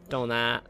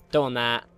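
No difference in how they are said.

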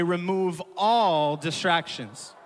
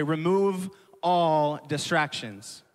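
First: "all" punched, slow, louder; stress on all. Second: Slow, spaced, a bit louder; said to neighbor. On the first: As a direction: hit the word "all" hard. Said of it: "emphasize the word all". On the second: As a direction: tell your neighbor slowly. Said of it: "look to your neighbor, say". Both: Shown as a demonstration.

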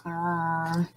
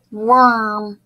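First: Lower, softer repeat of "Worm"; quiet puppet echo. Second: Said in the usual way. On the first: Shown as a demonstration. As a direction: puppet echoes softly. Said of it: "You and Steve will repeat". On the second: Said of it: "repeat the word after me".

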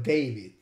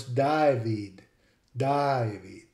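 First: David as "DAY-vid"; English David. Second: David as "DIE-vid"; Australian David. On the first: Lecturer contrasting with Australian, David as DAY-vid. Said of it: "instead of David". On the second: Lecturer showing an Australian speaker, David as DIE-vid. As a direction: say David with an Australian "eye" vowel. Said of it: "an Australian speaker would pronounce". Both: Shown as a demonstration.

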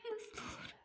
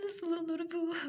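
First: High, whispered sob of disbelief; a stunned, crying whisper; broken whisper. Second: High, louder tearful wail; loud sobbing disbelief; anguished cry. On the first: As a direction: barely get the words out through grief. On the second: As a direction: cry it out in despair. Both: Acted. Grieving wife, disbelief.

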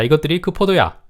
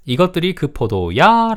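First: Said in the usual way. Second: "이것들이 그 포도야" asked with a stretched, high "야"; slow, high-pitched question on "이것들이 그 포도야"; questioning tune. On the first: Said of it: "자, 두 번째". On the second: Shown as a demonstration. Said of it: "라고 물어봤습니다".

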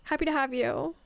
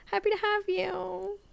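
First: Said in the usual way. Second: Pitched way up, sing-song greeting; cartoonish high welcome; mock high welcome. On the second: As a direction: repeat it in a silly squeaky voice. Repeated in a put-on voice.

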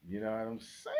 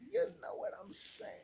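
First: Said in the usual way. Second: High, breathless whispered repeat; playful high whisper; whispered silly echo. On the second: Acted. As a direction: toss it off again as a squeaky whisper.

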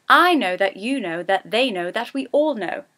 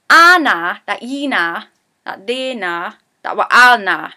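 First: Said in the usual way. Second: Loud Geordie Anna, then quicker; Geordie sentence. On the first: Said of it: "is what that means". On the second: Shown as a demonstration. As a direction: rattle off the Geordie line. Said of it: "I like to use the sentence".

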